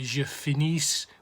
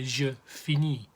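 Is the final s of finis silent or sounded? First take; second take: sounded; silent. First: The final s of finis is pronounced. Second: The final s of finis is silent. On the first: The speaker calls it wrong. "We don't say" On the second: The speaker calls it right. "we say"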